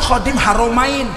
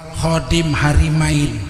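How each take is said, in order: First: The second syllable is pronounced with 'ro'. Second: The second syllable is pronounced with 'ri'. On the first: Guardian of the two holy cities. The speaker calls it right. "penjaga dua kota suci" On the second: It sounds like guardian of two wives. The speaker calls it wrong. "Haromain dibaca Harimain"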